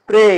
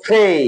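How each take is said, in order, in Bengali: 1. p-এর কোনো বাতাসের ঝাপটা নেই। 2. p-এর একটি জোরালো বাতাসের ঝাপটা আছে। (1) "আগে উচ্চারণ করেছি" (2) "এখন করব"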